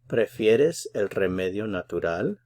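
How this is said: It is said with a questioning tune. It asks whether the listener prefers the natural remedy.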